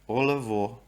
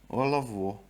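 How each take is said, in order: No difference in how they are said.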